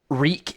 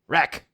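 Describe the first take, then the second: First: The word is said with a long vowel, like 'reek'. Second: The word is said with a short vowel, like 'wreck'.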